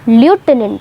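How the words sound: It is said the American way, loo-tenant.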